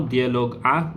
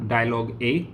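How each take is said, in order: First: DIALOGUE A said the French way, "dee-ah-log ah"; French vowels on "Dialogue A"; French pronunciation. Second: DIALOGUE A said in English, "die-a-log ay"; English vowels on "dialogue A"; English pronunciation. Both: Shown as a demonstration. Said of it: "go for the translation now".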